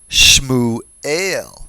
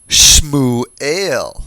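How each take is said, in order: First: The first two consonants form a tight cluster. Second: The first two consonants form a tight cluster.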